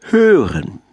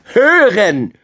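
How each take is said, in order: First: Higher, falling teacherly reveal; wise owl. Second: Put-on high, loud child's yell; cheeky shout. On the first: Owl reveals the answer to the animals, wise teacherly tone. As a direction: give the answer with a measured flourish. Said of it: "sagte die kluge Eule lächelnd". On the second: Cheeky grandson repeats it for grandmother badger, high loud shout. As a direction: yell it right into granny's ear. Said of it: "schrie der freche Kleine ihr ins Ohr". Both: A narrator's reading.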